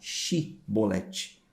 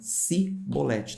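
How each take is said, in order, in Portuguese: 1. A palavra começa com som de 'sh'. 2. A palavra começa com som de 's'. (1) "com o som de, de C H" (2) "Eles falavam cibolete"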